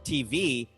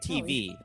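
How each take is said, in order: First: It is said in the typical Black style. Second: It is said in the typical white style.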